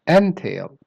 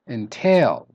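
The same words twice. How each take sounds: First: The stress is on the first syllable. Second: The stress is on the second syllable. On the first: The word is used as a noun. "if you stress the first syllable, N" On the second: The word is used as a verb. "So stress the tail"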